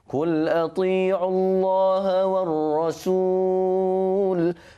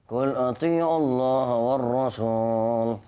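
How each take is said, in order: First: Each sound is articulated clearly one by one. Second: The sounds are swallowed and not fully articulated. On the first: The speaker calls it right. "Jadinya jelas satu persatu" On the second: The speaker calls it wrong. "kita menyebut tu macam Allah simpan-simpan ya"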